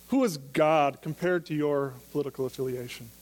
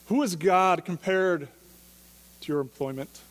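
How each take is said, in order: First: Said in the usual way. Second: "Who is God compared" slowed right down and pressed, with the stress on "who"; emphatic slow repeat. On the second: Shown as a demonstration. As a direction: lean on "who" and draw "Who is God compared" out slowly.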